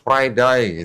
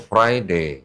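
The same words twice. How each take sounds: First: It is said with an Australian accent. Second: It is said with an English accent.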